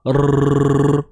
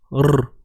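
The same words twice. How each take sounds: First: The r is trilled with a double tap. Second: The r is trilled with a single tap. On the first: The speaker calls it wrong. "Kalau dua getar" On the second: The speaker calls it right. "satu getar"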